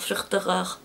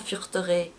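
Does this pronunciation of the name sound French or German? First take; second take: German; French. First: The name is said with a German-sounding pronunciation. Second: The name is said with a French-sounding pronunciation.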